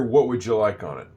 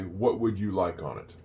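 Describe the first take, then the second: First: "What would you like on it" run together as "what wouldja like-on-it"; shortened up. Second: "What would you like on it" with "would you" kept as two words; careful form. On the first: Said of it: "another, uh, shortened up thing". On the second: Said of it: "you're not gonna hear it that way". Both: Shown as a demonstration.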